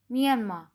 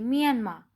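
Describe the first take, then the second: First: Myanmar ending open as mian-ma, no R at the end; Korean pronunciation. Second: Said in the usual way. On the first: Shown as a demonstration. Teacher contrasting English and Korean Myanmar for students. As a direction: drop the final r in Myanmar, Korean style. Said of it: "it doesn't". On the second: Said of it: "it have the slightest R sound at the end".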